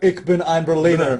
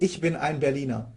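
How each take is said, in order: First: It is said with a foreign, non-German accent. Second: It is said with a native German accent.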